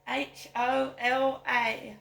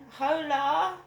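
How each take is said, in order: First: Spelling out. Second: Calling out. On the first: Shown as a demonstration. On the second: Real, not acted. Calling out to the street.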